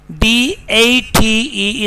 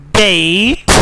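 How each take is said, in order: First: "date" with a pure "eh"; Pakistani pronunciation. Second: "date" with a gliding "ay"; British pronunciation. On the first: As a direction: say date as "deht", no glide. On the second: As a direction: say date as "deh-eet". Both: Shown as a demonstration. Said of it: "is not date".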